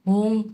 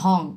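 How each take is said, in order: First: The vowel is said with rounded lips. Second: The vowel is said with unrounded lips. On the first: The speaker calls it right. "মুখটা গোল করে উচ্চারণ করতে হবে ওং" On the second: The speaker calls it wrong. "Not হং"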